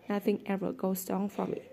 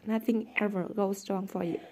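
First: Incredulous. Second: Said in the usual way. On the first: A narrator's reading. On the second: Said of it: "Toby repeated".

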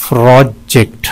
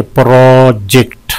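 First: "प्रोजेक्ट" in two short separate beats; syllable breakdown. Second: "प्रोजेक्ट" split in two, first syllable held; syllable breakdown. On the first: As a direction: split "प्रोजेक्ट" cleanly in two. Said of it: "इसमें दो syllable हैं". ("प्रोजेक्ट" दो छोटे हिस्सों में) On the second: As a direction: stretch the first part of "प्रोजेक्ट". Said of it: "दो हैं इसमें". ("प्रोजेक्ट" दो हिस्सों में खींचकर) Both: Shown as a demonstration.

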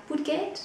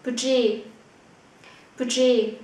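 First: Budget said budget with a hard t ending, English-style; wrong reading. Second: Budget said bü-dzhe, French-style, no t; correct German. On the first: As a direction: budget with a t sounded. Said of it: "Không phải là budget". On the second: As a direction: Budget with no final t. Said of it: "Không phải là budget ... mà là budget". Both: Shown as a demonstration.

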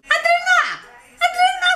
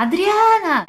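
First: Very high shrill-pitched mock call of Adriana; hammed-up mother yelling the daughter's name; imitating mom calling. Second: Said in the usual way. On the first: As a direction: shriek the name like her mother does. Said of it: "Ela fala assim". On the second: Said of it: "porque ela não fala assim".

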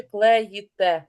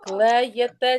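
First: Slow клеїте with a clear ї, кле-ї-те; ї spelling said aloud. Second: Slow Клеєте with a clear е sound, кле-е-те; е spelling said aloud. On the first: Teacher sounding out the right spelling for pupils, slow and clear. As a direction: stretch клеїте so the ї rings out against е. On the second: Teacher sounding out the wrong spelling for pupils, slow and clear. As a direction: stretch Клеєте so the е is heard, not ї. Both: Shown as a demonstration. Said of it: "Клеєте чи клеїте?".

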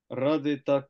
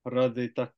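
The two takes are said the same way.

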